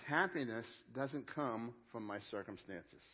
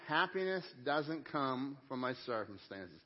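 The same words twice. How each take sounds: First: Said in the usual way. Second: Slow, measured group recitation; recited together. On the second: Shown as a demonstration. Pastor reciting the line with the congregation, slow and measured. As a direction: lead the room through it word by word, slowly. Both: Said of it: "Would you say that with me?".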